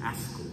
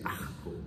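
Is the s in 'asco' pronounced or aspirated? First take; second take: pronounced; aspirated. First: The s sound is clearly pronounced. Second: The s sound is aspirated, like an h. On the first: "No dicen asco" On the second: "no pueden pronunciar la S por allá. En ese país dicen asco"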